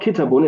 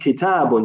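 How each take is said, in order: First: The vowel after the t is cut short. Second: The vowel after the t is held long. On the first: The speaker calls it wrong. "it's not kitabun" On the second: The speaker calls it right. "You have to pronounce the alif"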